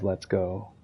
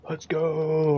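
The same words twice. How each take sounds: First: Said in the usual way. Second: Higher, excited "Let's go"; hyped-up catchphrase. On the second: Retold or imitated. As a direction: pump it up like a fan. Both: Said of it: "now everyone says".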